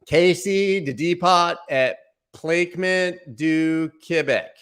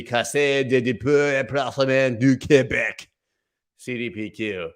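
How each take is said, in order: First: Slow, high, clumsy American reading of the French name; American accent. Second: Over-the-top mock French accent on the Quebec fund's name. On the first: Pretend. Vlogger mocks how Americans mispronounce the French fund name, slow and clumsy. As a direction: mangle the French like a clueless American, slowly. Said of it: "Here's how an American would say it". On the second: Vlogger fakes a French accent to read the fund name. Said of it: "But if I did speak French".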